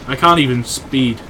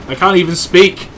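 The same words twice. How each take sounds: First: Said in the usual way. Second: "speak" pushed up high and louder, said right this time; speak corrected. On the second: Shown as a demonstration. Correcting himself to "speak" with a louder, higher word. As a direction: lands on "speak" with a rising, louder fix after "speed".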